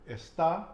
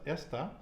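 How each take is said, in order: First: The stress is on the last syllable. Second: The stress is on the first syllable. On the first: "where am I putting the emphasis? ... What is there above the A?" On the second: "At the beginning on the E"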